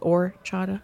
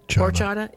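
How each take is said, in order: First: The word begins directly with the vowel. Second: The word begins with an audible h sound. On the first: "Is it orchata?"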